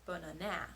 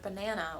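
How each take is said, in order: First: The stress is on the third syllable. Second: The stress is on the middle syllable. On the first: The speaker calls it wrong. "if we put it on the third syllable" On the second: The speaker calls it right. "with the proper stress placement by saying the middle syllable a little bit longer"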